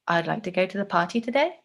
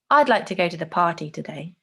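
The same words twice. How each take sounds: First: The pitch rises at the end. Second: The pitch falls at the end. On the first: The speaker is less certain and open to suggestion. "the rising tone" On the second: The speaker has decided and is certain. "The falling tone, where the tone goes down"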